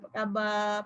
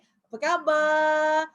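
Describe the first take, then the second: First: It is said weakly, with low, tired energy. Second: It is said brightly, with lively, cheerful energy. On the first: The speaker seems worn out and unenthusiastic. The speaker calls it wrong. "penat, entahlah, lemah je" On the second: The speaker seems happy and full of energy. The speaker calls it right. "Nampak keceriaan dia"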